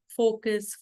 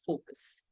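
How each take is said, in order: First: Said in the usual way. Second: "focus" breathed out with no voice; whispered focus. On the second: Shown as a demonstration. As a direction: whisper "focus" to draw them in. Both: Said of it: "calm and composed tone".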